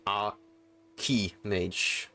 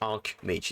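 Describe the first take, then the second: First: It is said with an extra middle vowel. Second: It is said without a middle vowel. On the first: The speaker calls it wrong. "it's not Archimage" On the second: The speaker calls it right. "it's Archmage"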